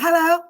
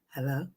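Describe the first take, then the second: First: The voice is clear and smooth. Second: The voice is rough and raspy. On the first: This is how she used to sound. "She used to be like" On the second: This is how she sounds now. "but she"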